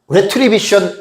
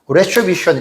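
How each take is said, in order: First: It is said with Korean-style pronunciation. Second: It is said with native English pronunciation. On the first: "우리말로는 retribution 이렇게 부릅니다" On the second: "영어로 보면 이게 retribution 이렇게 말해요"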